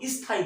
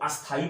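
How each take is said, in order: First: The word starts directly with the 'st' consonants. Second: An extra 'a' vowel comes before the first consonants. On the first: "बहुत सारे लोग इसको स्थाई बोलते हैं" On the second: "बहुत सारे लोग इसको अस्थाई बोलते हैं"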